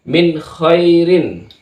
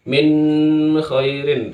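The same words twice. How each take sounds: First: The n sound is held only briefly. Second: The n sound is drawn out long. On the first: The speaker calls it right. "Maka yang benar adalah min khairin. Jangan lama" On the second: The speaker calls it wrong. "jangan min khairin, salah itu"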